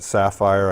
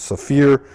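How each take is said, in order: First: The word ends with a syllable like 'fire'. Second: The word ends with a syllable like 'fear'. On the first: This is a common pronunciation. The speaker calls it wrong. "Some people uh, pronounce that Sapphire" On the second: This is the proper pronunciation. The speaker calls it right. "I believe its correct pronunciation is Saphir"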